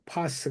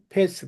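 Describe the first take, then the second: First: Pass has a long open vowel, as in 'father'. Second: Pass has a flat front vowel, as in 'pat'.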